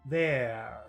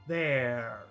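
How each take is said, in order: Both takes have the same delivery.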